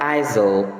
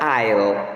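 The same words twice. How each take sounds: First: The S is sounded in the word. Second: The S is silent in the word. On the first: The speaker calls it wrong. "avoid mispronouncing the word as aisle" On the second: The speaker calls it right. "the letter S there is silent"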